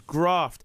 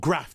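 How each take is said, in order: First: The name is said in a non-Leeds UK accent. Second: The name is said in a Leeds accent.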